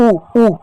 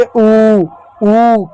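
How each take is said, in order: First: ऊ said briefly, each one separate; short vowel. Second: ऊ held long and steady; long vowel. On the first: Teacher showing the small oo sound, short ऊ. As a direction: keep ऊ short. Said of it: "छोटा ऊ का उच्चारण ऊ". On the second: Teacher answering how big oo sounds, long ऊ. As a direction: stretch each ऊ right out. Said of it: "बड़ा ऊ का उच्चारण किस रूप में". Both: Shown as a demonstration.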